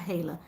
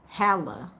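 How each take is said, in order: First: The first vowel sounds like 'ay'. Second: The first vowel sounds like 'ah'. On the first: The speaker calls it wrong. "So not hey, okay, not Hala" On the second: The speaker calls it right. "sound of A as in R"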